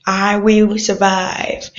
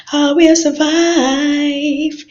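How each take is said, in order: First: Said in the usual way. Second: Slow, higher, sung "I will survive"; sung, belt the song line slowly. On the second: Acted.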